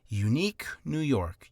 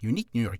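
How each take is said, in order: First: The phrase is said at a slow pace. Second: The phrase is said at a fast pace. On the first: "try saying it slower" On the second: "then start speeding up"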